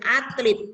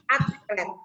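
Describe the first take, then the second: First: The second vowel is an i sound. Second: The second vowel is an e sound. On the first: This is the non-standard form. The speaker calls it wrong. "Kata tidak baku ditulis atlet menggunakan huruf I" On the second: This is the standard form. The speaker calls it right. "kata baku dari kata atlet menggunakan huruf E"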